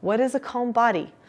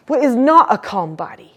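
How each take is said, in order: First: Said in the usual way. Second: "What is not a calm body" pushed louder and higher to show upset; louder agitated demo. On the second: Shown as a demonstration. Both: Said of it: "role play practice those differences".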